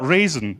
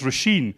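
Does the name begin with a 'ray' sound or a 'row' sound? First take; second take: ray; row. First: The name begins with a 'ray' sound. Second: The name begins with a 'row' sound. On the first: The speaker calls it wrong. "not Raisin, as she's constantly referred to" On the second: The speaker calls it right. "her name is Roisin"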